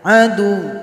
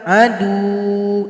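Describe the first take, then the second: First: The consonant is pressed and the vowel is short. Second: The final vowel is drawn out long. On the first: The speaker calls it right. "Jadi cuma ditekan saja" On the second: The speaker calls it wrong. "Jadi jangan dipanjangkan. Adu, itu salah"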